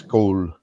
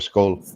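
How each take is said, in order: First: The emphasis is on the long, drawn-out vowel. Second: The emphasis is on the opening sk sound. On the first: This is how the speaker's own region says it. "ours is on, it's like more elongated" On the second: This is how Americans say it. "in America, the emphasis is on the first half of the word... on the S K part"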